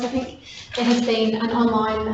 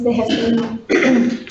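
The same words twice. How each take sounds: First: Said in the usual way. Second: Hoarse, strained voice giving out; losing voice. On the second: Real, not acted. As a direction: voice cracking and failing. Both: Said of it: "sorry, I'm losing my voice".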